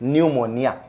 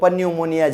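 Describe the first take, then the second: First: The word begins with an n sound, no p. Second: The word begins with a pronounced p sound. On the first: The speaker calls it right. "પણ આને બોલાય ન્યુમોનિયા" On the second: The speaker calls it wrong. "આપણે બાકી બોલવા જાય તો પન્યુમોનિયા જેવું લાગે"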